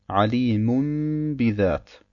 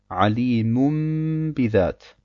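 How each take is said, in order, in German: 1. Vor dem b wird ein m-Laut gesprochen. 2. Vor dem b wird ein m-Laut gesprochen.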